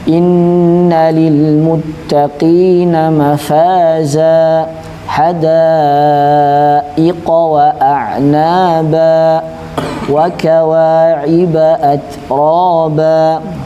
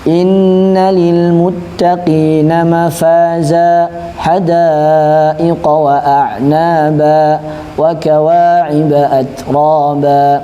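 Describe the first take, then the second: First: It is recited at a very slow pace. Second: It is recited at a medium pace. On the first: "tahqiq ... lambat banget" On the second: "enggak terlalu cepat dan enggak terlalu lambat"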